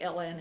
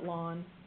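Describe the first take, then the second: First: It is said as two separate letter names. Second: It is said as one word rhyming with dawn. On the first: "So you can say L N if you want" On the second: "I call it lawn, like a lawn. That's how I pronounce it"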